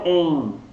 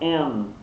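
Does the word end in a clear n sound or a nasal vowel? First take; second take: nasal vowel; clear n. First: It ends in a nasal vowel without n. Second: It ends with a clear n consonant. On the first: The speaker calls it wrong. "Não é em" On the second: The speaker calls it right. "Ele termina com esse som do, do N"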